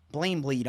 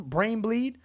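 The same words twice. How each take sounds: First: "Blame bleed" with BRAIN slurred into "Blame"; slurred slip. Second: Said in the usual way. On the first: Real, not acted. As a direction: trip on the first word, saying "Blame bleed" for brain bleed. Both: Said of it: "I'm slurring my words over here".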